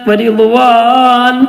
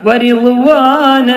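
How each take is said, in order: First: The word ends on a closed 'n' sound. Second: The word ends on an open 'a' vowel. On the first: The speaker calls it wrong. "എന്ന് പറയരുത്" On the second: The speaker calls it right. "ആ രൂപത്തിലാണ് നിർത്തേണ്ടത്"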